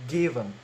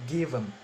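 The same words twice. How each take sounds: The two takes are said the same way.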